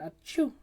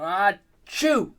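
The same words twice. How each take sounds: First: The sneeze is very soft. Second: The sneeze is very loud. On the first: It is meant to seem dainty. "your sneeze is is that this non-sounding" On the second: It is meant to draw attention. "they'd do it as loud as possible"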